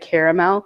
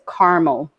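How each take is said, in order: First: The word is said with three syllables. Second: The word is said with two syllables. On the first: "some Americans say caramel" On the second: "she skips the A"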